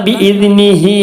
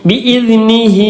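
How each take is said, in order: The two takes are said the same way.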